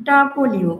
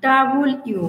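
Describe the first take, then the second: First: "ডাবল ইউ", louder and clear; "ডাবল ইউ" with stress on ডাবল; correct W. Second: "ডাবল ইউ" said clearly; careful "ডাবল ইউ"; W again. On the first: Teacher models W as "ডাবল ইউ". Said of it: "তাহলে উচ্চারণটা হবে". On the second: Teacher repeats W as "ডাবল ইউ". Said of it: "উচ্চারণটা হবে". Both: Shown as a demonstration.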